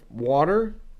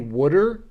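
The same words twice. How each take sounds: First: Water is said in a standard American accent. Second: Water is said in a Philadelphia accent. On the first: The speaker is not local to Philadelphia. "instead of water" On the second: The speaker is local to Philadelphia. "a lot of people here say water"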